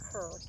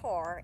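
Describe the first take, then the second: First: The name rhymes with 'fur'. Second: The name rhymes with 'car'. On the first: This is how the locals say it. The speaker calls it wrong. "We call it Kerr" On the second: This is how people from the namesake's state say it. The speaker calls it right. "they call it Carr"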